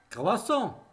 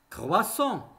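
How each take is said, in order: No difference in how they are said.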